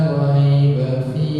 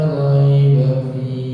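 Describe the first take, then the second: No difference in how they are said.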